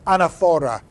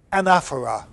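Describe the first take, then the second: First: Anaphora said an-uh-FOR-uh, stress moved to the third syllable; alternate pronunciation. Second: Anaphora said AN-AF-er-uh, stress on the second syllable. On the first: Teacher gives students the alternate stress, anaphora as an-a-FOR-a. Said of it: "or anaphora". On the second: Teacher names the figure for students, anaphora with stress on the second syllable. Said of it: "that's called". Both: Shown as a demonstration.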